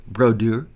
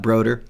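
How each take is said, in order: First: "Brodeur" in an attempted French accent, rising on -deur; best French accent. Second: "Broder" said the plain English way, ending in -der; anglicized mispronunciation. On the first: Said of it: "That's my best French accent". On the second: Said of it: "Not Broder". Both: Shown as a demonstration.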